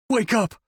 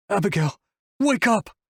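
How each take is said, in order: First: High-pitched desperate plea; pleading. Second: High-pitched desperate cry; narrated roar, pitch leaping up on the last words; mild roar. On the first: Wolf begs Abigail to wake, pleading. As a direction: beg it, pitch well up. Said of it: "he pleads". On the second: Wolf roars at Abigail to wake up, held-back volume. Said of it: "he roars at her". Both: A narrator's reading.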